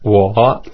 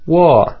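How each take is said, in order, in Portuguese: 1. O tom desce e sobe um pouquinho. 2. O tom começa alto e cai baixo. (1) "O terceiro tom desce e sobe um pouquinho" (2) "o quarto tom é descendente. Começa agudo e fica grave"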